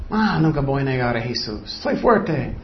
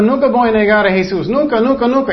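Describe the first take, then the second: First: Lower, softer self-satisfied boast; smug pride. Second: Quick, higher mock boast full of pride; proud boast. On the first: Retold or imitated. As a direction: savour the proud words quietly. (orgullo engreído, más grave y suave) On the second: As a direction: rattle off the proud vow of loyalty. (jactancia orgullosa, rápida y más aguda) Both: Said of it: "Es orgullo".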